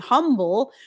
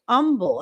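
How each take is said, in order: First: The word begins with an H sound. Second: The word begins without an H sound.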